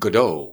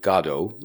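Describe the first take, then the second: First: Godot is said the American way, sounding more French. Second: Godot is said the British way, sounding like God. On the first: "lots of Americans feel they're better off with Godot, which sounds sort of more French" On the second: "I presume he pronounced it Godot, like, you know, the English usually say"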